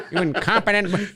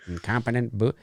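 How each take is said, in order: First: High-pitched villain scolding, breaking into laughter; cartoon villain voice. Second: Said in the usual way. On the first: Fan imitates a cartoon villain's insult, high laughing villain voice.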